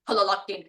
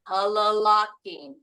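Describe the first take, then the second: First: The word is said quickly, without drawing it out. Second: The word is said slowly, drawn out. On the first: It does not convey slowness. The speaker calls it wrong. "it doesn't feel slow anymore" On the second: It conveys slowness. The speaker calls it right. "feels slow"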